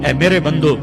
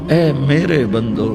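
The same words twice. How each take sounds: First: It is said in a plain, unaffectionate tone. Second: It is said in a warm, loving tone. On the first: The speaker calls it wrong. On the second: The speaker calls it right.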